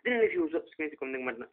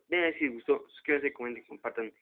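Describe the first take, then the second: First: The phrase is said at a fast pace. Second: The phrase is said at a slow pace.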